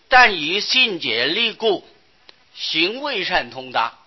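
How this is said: The pause comes after the word 故. The speaker calls it wrong. "信竭力故的故字下面那个圈不正确"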